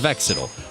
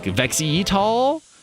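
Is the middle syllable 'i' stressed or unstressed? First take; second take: unstressed; stressed. First: The middle syllable is not stressed. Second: The middle syllable is stressed. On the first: The speaker calls it right. "I think my name is Vexidal" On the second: The speaker calls it wrong. "other people put emphasis on the I"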